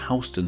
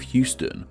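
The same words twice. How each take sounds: First: It is said the way the New York street is. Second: It is said the way the Texas city is. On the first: It names the street in New York. "while in N Y C we have Houston Street" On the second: It names the city in Texas. "In Texas, we have the city of Houston"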